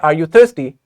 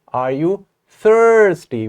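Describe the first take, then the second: First: The voice falls at the end of the question. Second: The voice rises at the end of the question. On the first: The speaker calls it wrong. "We don't say" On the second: The speaker calls it right. "We say, ... We are going to raise our voice here"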